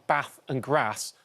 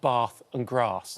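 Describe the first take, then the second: First: The words are said in a northern English accent. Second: The words are said in a southern English accent.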